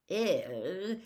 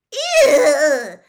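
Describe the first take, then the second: First: Said in the usual way. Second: High, very loud laughing squeal of disgust. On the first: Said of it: "just about summed up". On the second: A narrator's reading. Lavender recoils from the crates with a loud squeal. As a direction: shriek it and leap back. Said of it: "squealed Lavender Brown".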